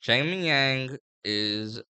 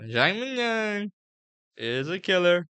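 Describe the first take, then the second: First: Said in the usual way. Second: High, drawn-out Trump voice; Trump impression. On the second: Shown as a demonstration. Vlogger hyping a fighter as Trump, high Trump impression. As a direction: stretch the name out like Trump, pitched way up. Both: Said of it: "I'll talk like Trump".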